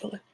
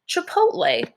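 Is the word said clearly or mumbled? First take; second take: mumbled; clearly. First: The word is mumbled and blurred together. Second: The word is said clearly and distinctly. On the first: "you kind of mumbled it and blurred it together" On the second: "You're saying Chipotle"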